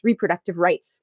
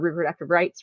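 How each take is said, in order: First: The phrase is said loudly and clearly. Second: The phrase is mumbled quickly and quietly. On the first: The speaker calls it right. "Let me say that loud and clear" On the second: The speaker calls it wrong. "I kind of mumbled through it"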